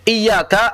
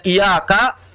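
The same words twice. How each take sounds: First: "Iyyaka" higher, with the y held under tasydid; doubled y. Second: "Iyyaka" as i-yaka with one light y; missing tasydid. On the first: Teacher shows the correct meaning, "Iyyaka" with tasydid. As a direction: press firmly on the y of "Iyyaka". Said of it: "kalau ditasdid". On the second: Teacher shows the reading that means sunset, "Iyyaka" undoubled. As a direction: say "Iyyaka" with no held y. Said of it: "Berarti kalau kita baca". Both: Shown as a demonstration.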